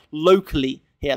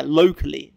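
First: Said in the usual way. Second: Locally given extra weight, falling at the end; stress on locally. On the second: Shown as a demonstration. Trader stressing to viewers that his bias is local. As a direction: lean into the word locally. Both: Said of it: "big emphasis on the word locally".

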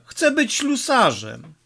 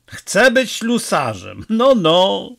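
First: Put-on high-pitched, earnest boy's wish; lightly voiced boy insisting on his dream; boyish declaration. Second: Slow, higher, wondering echo; musing mutter. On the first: (wysoki, chłopięcy głos, z przekonaniem) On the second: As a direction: mull over the boy's words, lightly marvelling. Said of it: "pomrukiwał Don Camillo". (powoli, z lekkim niedowierzaniem, do siebie) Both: A narrator's reading.

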